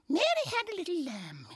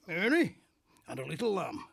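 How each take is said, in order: First: It is said in a put-on woman's voice. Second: It is said in a northern English man's accent.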